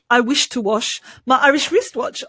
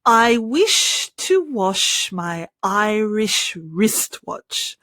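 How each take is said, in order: First: It is said fast. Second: It is said slowly.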